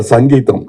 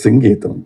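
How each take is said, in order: First: The first vowel sounds like 'a'. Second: The first vowel sounds like 'i'. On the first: The speaker calls it wrong. "there was always a confusion how to pronounce his name" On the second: The speaker calls it right. "No, it is Singeetam, please"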